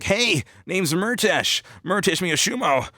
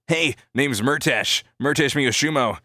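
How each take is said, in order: First: Very high, drawn-out cartoon voice; high-pitched, full-on character introduction; original Murtesh. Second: Moderately high, drawn-out character voice; easygoing, swooping character introduction; relaxed Murtesh. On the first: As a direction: push the character voice way up high and stretch the name. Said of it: "originally the Murtesh voice is like". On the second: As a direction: ease off the cartoon voice, keeping it raised. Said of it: "a more relaxed version of it". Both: Shown as a demonstration.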